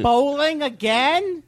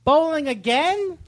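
First: Incredulous. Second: High, slow disbelieving question; mock disbelief, stretched out; incredulous. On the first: Retold or imitated. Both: Mocking Todd's excuses.

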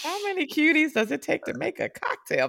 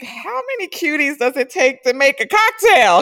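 First: High repeated quote. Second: High and loud, teasing delight; giddy quote. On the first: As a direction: say it again lightly for fun. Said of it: "repeat of her own line". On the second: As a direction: marvel at all the cute guys. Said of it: "And I was like". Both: Retold or imitated.

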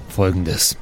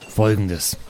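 Both takes have the same delivery.

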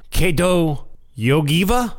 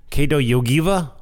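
First: Yogiva rising like a question; unsure name reading. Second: Yogiva falling at the end; settled name reading. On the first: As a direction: sound out Kedo Yogiva slowly, higher, lifting at the end. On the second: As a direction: repeat Kedo Yogiva as a statement, pitch dropping to close. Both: Shown as a demonstration. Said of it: "I have trouble with these names".

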